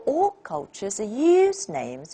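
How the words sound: The main stress falls on the word use. Names is already-given information. "use the meaning use is more important than names"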